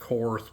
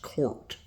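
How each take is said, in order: First: The name ends with a th sound. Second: The name ends with a t sound. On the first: The speaker calls it wrong. "a lot of people pronounce that Korth" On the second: The speaker calls it right. "it's actually a German name and it is pronounced Court"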